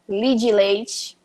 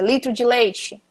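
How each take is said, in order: First: The first word is cut short to one syllable. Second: Every syllable of the phrase is pronounced fully. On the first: "eles tentam reduzir o, o máximo que der"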